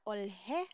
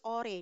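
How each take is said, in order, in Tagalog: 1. Naririnig ang tunog na h pagkatapos ng L. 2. Tahimik ang h at dumidikit ang L sa sumunod na tunog. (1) "not olhe" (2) "the sound here is ore"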